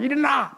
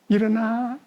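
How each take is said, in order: First: It is shouted harshly and loudly. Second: It is said softly and gently.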